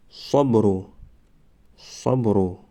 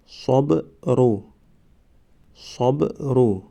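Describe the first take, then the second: First: Said in the usual way. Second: صبرو stretched very slowly, syllable by syllable; drawn-out demo. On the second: Shown as a demonstration. Teacher modelling the word for students, very slow. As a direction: draw out صبرو slowly for the class. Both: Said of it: "ما باید همان حرف را فقط آوازش را تلفظ کنیم".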